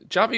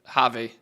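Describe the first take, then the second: First: The name begins with a J sound. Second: The name begins with an H sound. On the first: "It depends how you pronounce the J" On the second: "Like an H"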